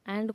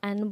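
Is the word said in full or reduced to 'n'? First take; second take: full; reduced. First: The word is said in full as 'and'. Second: The word is reduced to just 'n'. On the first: "एंड को" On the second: "एन बोले, सिर्फ एन"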